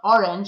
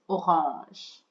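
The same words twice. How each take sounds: First: The word is said with an English accent. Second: The word is said with a French accent. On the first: The speaker calls it wrong. "It's not orange" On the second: The speaker calls it right. "you've just got to add a little French accent to it"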